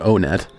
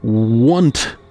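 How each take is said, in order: First: The name begins with an 'oh' sound. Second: The name begins with the word 'one'. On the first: This is the commonly preferred pronunciation. "that's the internet's preferred pronunciation" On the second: The name contains the number one. "contain the number one ... the correct pronunciation of Onet is actually want"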